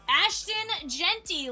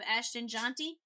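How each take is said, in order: First: The surname rhymes with 'plenty'. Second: The surname rhymes with 'jaunty'. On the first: The speaker calls it right. "like plenty" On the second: The speaker calls it wrong. "instead of Ashton Jaunty"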